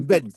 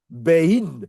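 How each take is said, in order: First: The vowel is a plain short e. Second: The vowel glides into an i sound. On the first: The speaker calls it right. "Non, tu dis Ben" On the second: The speaker calls it wrong. "Tu ne dis pas Bein"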